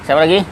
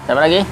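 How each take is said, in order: No difference in how they are said.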